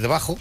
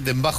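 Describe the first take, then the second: First: The word has no m sound before the b. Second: The word has an m sound before the b. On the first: The speaker calls it right. "es debajo" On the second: The speaker calls it wrong. "pero dicen dembajo"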